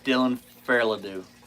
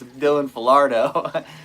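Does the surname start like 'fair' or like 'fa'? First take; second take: fair; fa. First: The surname begins with a 'fair' sound. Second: The surname begins with a short 'fa' sound. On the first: The speaker calls it wrong. "I've always called him" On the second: The speaker calls it right. "it's Dylan Falardo"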